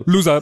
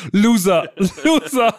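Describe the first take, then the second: First: Ganz kurz und laut; kurzes Loser. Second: Höher und lauter, lachend gerufen; spöttischer Loser-Ruf. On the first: Shown as a demonstration. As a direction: Loser wie ein Aufblitzen. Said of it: "wie so ein Aufblitzen". (kurz aufblitzendes Loser) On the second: Retold or imitated. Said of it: "der zweite Loser ist so ein bisschen zu kurz". (spöttisch gerufenes Loser)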